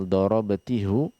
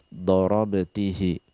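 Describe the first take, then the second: First: The word ends with an 'u' vowel. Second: The word ends with an 'i' vowel. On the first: The speaker calls it wrong. "Kita tidak baca dorobatihu" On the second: The speaker calls it right. "tapi dorobatihi"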